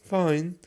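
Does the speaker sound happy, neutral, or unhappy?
neutral. It sounds flat and indifferent. The speaker is neither happy nor unhappy. "meaning I'm neither happy nor unhappy"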